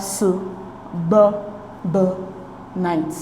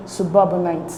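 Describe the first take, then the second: First: "su, b, b, night" with a clear pause after each piece; syllable by syllable. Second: Said in the usual way. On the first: Shown as a demonstration. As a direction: sound out "su, b, b, night" in isolated beats. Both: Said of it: "we divide the word into its syllables".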